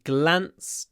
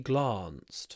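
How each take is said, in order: First: It is said without a southern English accent. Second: It is said with a southern English accent.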